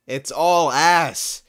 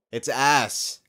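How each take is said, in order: First: Slow, loud, higher rant; drawn-out shout. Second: Said in the usual way. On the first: Real, not acted. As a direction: stretch it out and yell it.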